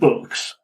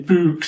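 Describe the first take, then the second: First: The word is said without a Yorkshire accent. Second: The word is said in a Yorkshire accent. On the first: "instead of books" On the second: "Or you say books"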